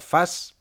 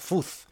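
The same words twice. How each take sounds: First: The word is pronounced with English sounds. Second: The word is pronounced as read in Spanish. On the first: "en inglés se pronuncia fuzz" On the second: "aquí lo pronunciamos tal y como se lee"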